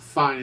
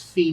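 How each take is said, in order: First: It is pronounced like the English word fine. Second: It is pronounced the Italian way, two syllables. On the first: The speaker calls it wrong. "It's not fine" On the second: The speaker calls it right. "it's Italian"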